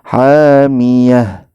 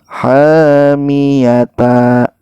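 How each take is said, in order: First: The word ends in a final h sound. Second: The word ends with the syllable ta. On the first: The speaker calls it right. "khusus untuk ta ini kita sukunkan" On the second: The speaker calls it wrong. "Jangan sampai"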